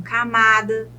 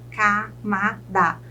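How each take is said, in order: First: Said in the usual way. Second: Slow "camada", split ca, ma, da; three separate beats in "camada"; syllable by syllable. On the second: Shown as a demonstration. Teacher counts three syllables for students, "camada" syllable by syllable. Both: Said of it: "Eu chamo de trissílabas".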